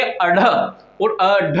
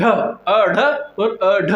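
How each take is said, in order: First: अढ़ और अढ़ said slowly, each अढ़ clear with the tongue flapping down; slow sound demo. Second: अढ़ और अढ़ stretched out very slowly, each अढ़ drawn out; very slow sound demo. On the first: Teacher showing students how अढ़ sounds, slow careful demo. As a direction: pronounce अढ़ slowly for the class, tongue striking up then dropping. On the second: Teacher repeating अढ़ for students, very slow drawn-out demo. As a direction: repeat अढ़ even slower so every part is heard. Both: Shown as a demonstration. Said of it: "जैसे आप बोलोगे".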